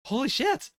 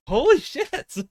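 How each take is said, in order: First: Rising, amazed disbelief; breathless wonder, pitch climbing; excited. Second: Much higher, louder excited yell; screaming excitedly. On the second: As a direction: shriek it out in delight. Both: Real, not acted. Stunned reaction to Bleach chapter.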